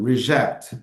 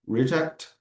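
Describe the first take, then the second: First: The stress is on the second syllable. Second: The stress is on the first syllable. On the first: It is a verb. "to refuse" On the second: It is a noun. "discard item"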